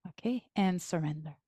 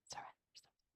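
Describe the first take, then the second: First: Said in the usual way. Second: Breathy whisper of a single word, Surrender; whispered cue. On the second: Shown as a demonstration. Guiding the listener to let go, whispered.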